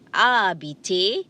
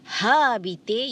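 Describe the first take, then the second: First: The initial H sound is silent. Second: The initial H sound is pronounced. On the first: The speaker calls it right. "the H is silent" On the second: The speaker calls it wrong. "you don't say habiter"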